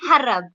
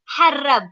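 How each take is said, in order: First: The starting H sound is light and weak. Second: The starting H sound is strong and stressed. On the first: The speaker calls it wrong. "you don't say harab" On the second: The speaker calls it right. "You have to like stress on that H"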